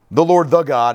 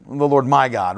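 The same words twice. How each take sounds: First: Second "the" set out firmly before "God"; stress on the. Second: "my" picked out before "God"; stress on my. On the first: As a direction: lean on "the" as the impersonal word. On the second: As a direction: lower voice, making "my" the personal word. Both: Shown as a demonstration. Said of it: "personal pronouns make a difference".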